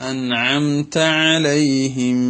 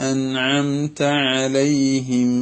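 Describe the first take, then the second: The two takes are said the same way.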